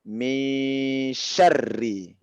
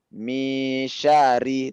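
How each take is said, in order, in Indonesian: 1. Bunyi r ditahan dan dobel. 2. Bunyi r pendek dan tunggal. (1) "tapi min syarri" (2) "Jangan min syari"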